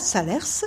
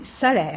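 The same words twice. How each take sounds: First: The final S is pronounced. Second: The final S is silent. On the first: The speaker calls it wrong. "On ne dit pas Salers" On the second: The speaker calls it right. "on dit Salers. On ne prononce pas le S"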